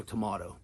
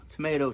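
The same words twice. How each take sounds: First: "tomato" as tuh-MAH-toh; British pronunciation. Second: "Tomato" as tuh-MAY-toh; American pronunciation. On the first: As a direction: say "tomato" with a broad MAH in the middle. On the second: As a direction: say "Tomato" with a long MAY in the middle. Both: Shown as a demonstration. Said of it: "it's kinda up to you".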